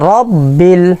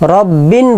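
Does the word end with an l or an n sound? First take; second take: l; n. First: The word ends with an l sound. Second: The word ends with an n sound. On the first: The speaker calls it right. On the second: The speaker calls it wrong.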